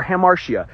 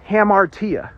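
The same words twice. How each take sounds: First: Hamartia said ha-MAR-shee-uh. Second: Hamartia said ha-MAR-tee-uh. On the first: Teacher offering the other pronunciation, hamartia with an SH. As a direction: soften the T in hamartia to SH. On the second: Teacher giving the Greek word, hamartia pronounced with a T. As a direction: sound a clear T in hamartia. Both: Shown as a demonstration. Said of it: "however you want to pronounce it".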